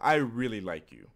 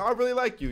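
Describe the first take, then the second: First: It is said in an earnest, serious tone. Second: It is said lightly, with a casual laugh. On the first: The speaker wants to date the person. "which is like obviously like I want to date you" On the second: The speaker likes the person's personality as a friend.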